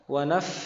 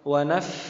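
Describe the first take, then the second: The two takes are said the same way.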